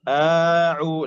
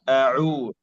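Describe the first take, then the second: First: The opening vowel is drawn out long. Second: The opening vowel is short and crisp. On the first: The speaker calls it wrong. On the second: The speaker calls it right.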